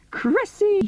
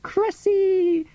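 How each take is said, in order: First: Much higher called-out name, again pleading; crying out. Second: Much higher called-out name; crying out. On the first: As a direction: keep calling her as you run. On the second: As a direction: call her name as you run to her. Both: Retold or imitated. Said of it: "crying out".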